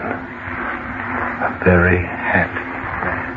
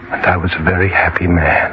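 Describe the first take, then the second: First: Breathy whisper, slow and fading; whispered echo. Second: Said in the usual way. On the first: Acted. Dead man repeats his happiness in a slow whisper. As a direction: let it die away to a whisper.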